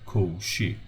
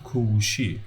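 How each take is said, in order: First: "kovushi" without the u; dropped second vowel. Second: "kovushi" with the u kept; full second vowel. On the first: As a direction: say "kovushi" in two syllables, kov-shi. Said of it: "one of these in the second syllable". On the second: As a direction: say "kovushi" in three syllables, ko-vu-shi. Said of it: "So not kovushi". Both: Shown as a demonstration.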